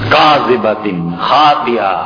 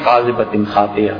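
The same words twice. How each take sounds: First: It is recited with expressive, meaningful intonation. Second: It is recited flatly without expressive intonation. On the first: The words condemn a lying, sinful person. The speaker calls it right. "جھوٹا آدمی، جھوٹی پیشانی، سخت گناہگار" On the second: The meaning of the words is lost. The speaker calls it wrong. "ہے تو تلاوت تو ہے مگر قرآن کہاں"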